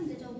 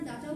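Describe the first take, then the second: First: The first vowel sounds like 'ay'. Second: The first vowel sounds like 'ah'. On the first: "ডেটাও বলতে পারেন, সবকিছু কোনো problem নেই" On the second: "এটার pronunciation আপনারা ডাটাও বলতে পারেন"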